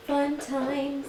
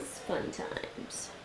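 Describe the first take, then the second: First: Said in the usual way. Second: Whispered. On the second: Real, not acted. Whispered repeat.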